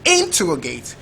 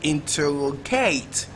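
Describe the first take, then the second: First: The stress is on the first syllable. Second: The stress is on the fourth syllable. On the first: "First label"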